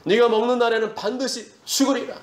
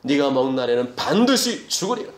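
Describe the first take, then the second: First: "네가 먹는 날에는" high from the first word; high, insistent divine warning, "반드시" held up; raised warning. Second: "반드시" jumps up after a lower start; God's warning with stress on "반드시"; solemn warning. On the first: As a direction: declare it in a high preaching pitch through "죽으리라". Repeats God's warning, raised. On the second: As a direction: begin low, then punch "반드시". Quotes God's warning, first take. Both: Acted.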